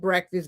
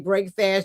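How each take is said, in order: First: It is said as one blended everyday word. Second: It is said as two clearly separate words. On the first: The usual everyday name for the meal. "some of you call it breakfast" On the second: The meal breaks the night's fast. "I like to enunciate exactly what it is"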